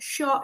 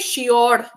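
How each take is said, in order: First: The R sound is light and barely touched. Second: The R sound is strong and rolled. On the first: The speaker calls it right. "Sure is fine" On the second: The speaker calls it wrong. "We do not say sure"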